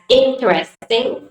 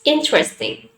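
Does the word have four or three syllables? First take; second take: four; three. First: The word is said with four syllables. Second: The word is said with three syllables. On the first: The speaker calls it wrong. "interesting is not pronounced as interesting" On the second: The speaker calls it right. "Three syllables"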